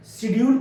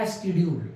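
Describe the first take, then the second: First: "शेड्यूल" starting with sh; old pronunciation. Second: "एस्केड्यूल" with a sk sound at the start; newer pronunciation. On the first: Teacher giving the older way to say schedule, spoken plainly. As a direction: say "शेड्यूल" as shed-yool, a little higher. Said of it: "शेड्यूल को शेड्यूल". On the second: Teacher mimicking the new way to say schedule, spoken plainly. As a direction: say "एस्केड्यूल" as es-ked-yool. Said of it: "अब बोलते हैं". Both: Shown as a demonstration.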